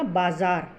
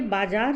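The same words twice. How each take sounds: First: बाज़ार with a buzzing z in the middle; correct pronunciation. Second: बाज़ार said with j in the middle; wrong pronunciation. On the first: Teacher gives the right form, बाज़ार said with z. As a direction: say बाज़ार as bazaar, not bajaar. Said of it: "जो सही उच्चारण है". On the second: Teacher flags the misspelt word, बाज़ार said with j. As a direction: say बाज़ार as bajaar, no z. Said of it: "ये गलत है". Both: Shown as a demonstration.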